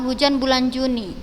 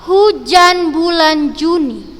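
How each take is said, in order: First: It is read flatly, without rhythm. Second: It is read firmly, with rhythm.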